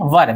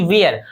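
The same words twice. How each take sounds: First: "वर" as one short syllable, wer; correct pronunciation. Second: "वेयर" as the wrong two-syllable vee-yer for were; wrong pronunciation. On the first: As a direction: say "वर" short and clipped, the right way. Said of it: "इसको बोलते हैं वर". ("वर" सही उच्चारण में, एक छोटे अक्षर में) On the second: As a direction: say "वेयर" drawn out like vee-yer, as the common mistake. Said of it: "गलत होगा". ("वेयर" को गलत उच्चारण में, वी-यर की तरह) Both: Shown as a demonstration.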